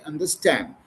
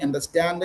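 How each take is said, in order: First: "understand" ending cleanly on d, no added vowel; correct pronunciation. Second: "understand" with an extra uh after the final d; wrong pronunciation. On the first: Teacher modelling for a learner, "understand" pronounced with no trailing uh. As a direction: stop "understand" right on its final consonant. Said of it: "you have to say understand". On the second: Teacher correcting a learner, "understand" mispronounced with a trailing uh. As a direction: tack a short vowel onto the end of "understand". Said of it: "instead of saying understand". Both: Shown as a demonstration.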